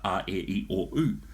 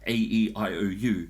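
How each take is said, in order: First: The vowels are said as pure Maori vowel sounds. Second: The vowel names are said as English letter names. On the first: The speaker calls it right. "as opposed to" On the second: The speaker calls it wrong. "they're reading it as if it's English"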